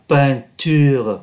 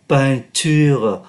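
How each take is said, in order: The two takes are said the same way.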